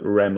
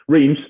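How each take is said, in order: First: It is said in a French-style way, like 'Rem'. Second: It is said in an English-style way, like 'Reems'. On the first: The speaker calls it right. "It's like Rem or something like that" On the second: The speaker calls it wrong. "but Reims for the British"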